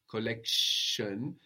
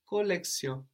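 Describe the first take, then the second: First: The middle consonant is a sh sound. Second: The middle consonant is an s sound. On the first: "the sh that we have in English" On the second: "and in French, collection, like with an S"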